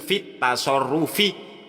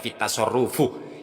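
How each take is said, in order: First: The word ends with an i vowel. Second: The word ends with a u vowel. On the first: The speaker calls it right. "Sing bener iku fitasorrufi" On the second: The speaker calls it wrong. "Ya apa iki kok dibaca fitasorrufuh?"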